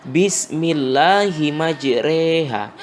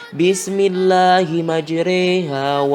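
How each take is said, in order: The two takes are said the same way.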